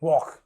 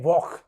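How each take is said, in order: Both takes have the same delivery.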